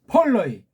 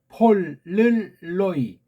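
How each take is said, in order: First: The word is said at normal speed. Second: The word is said slowly, syllable by syllable.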